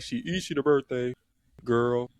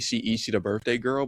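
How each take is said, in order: First: There is a long pause before girl. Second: It is said without a pause before girl.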